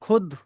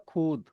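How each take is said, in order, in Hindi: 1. स्वर छोटी "u" ध्वनि है। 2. स्वर लंबी "oo" ध्वनि है। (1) "खुद पढ़ना है इसे" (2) "बड़े ऊ की मात्रा मान के चलो ... दैट इज रॉन्ग"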